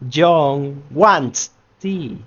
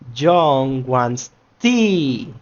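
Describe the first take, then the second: First: The word wants carries the stress. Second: The word tea carries the stress. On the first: "In the second one, we are making emphasis in wants" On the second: "in the third ones, we are making emphasis in the tea itself"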